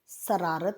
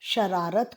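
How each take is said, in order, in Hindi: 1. शब्द 's' ध्वनि से शुरू होता है। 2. शब्द 'sh' ध्वनि से शुरू होता है। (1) "जो अशुद्ध है" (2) "लोग श को स बोलते हैं"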